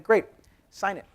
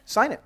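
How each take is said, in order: First: Brisk demand. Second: Sharp and higher, louder; insistent repeat. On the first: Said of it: "I'm like". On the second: Founder to hesitant partners, insisting loudly. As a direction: push it home like a boss who won't wait. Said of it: "repeated demand". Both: Retold or imitated.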